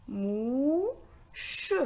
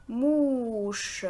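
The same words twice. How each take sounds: First: "Mouche" as a long "mou", pause, then "che"; split into syllables. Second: Said in the usual way. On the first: Shown as a demonstration. Teacher counting syllables for learners, "Mouche" split as mou-che. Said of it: "est composé de deux syllabes". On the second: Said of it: "On a ici le mot".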